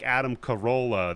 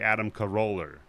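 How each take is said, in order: First: The name ends in a plain vowel. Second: The name ends with an added R sound. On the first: "So instead of like Adam Carolla" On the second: "They'll throw in an R, even if it's somebody's fucking name"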